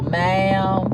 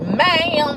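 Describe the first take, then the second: First: The word is said slowly and drawn out. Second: The word is said quickly and sharply. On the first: The speaker calls it right. "she wants you to say it kind of slow" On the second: The speaker calls it wrong. "you being too fast when you say it like that"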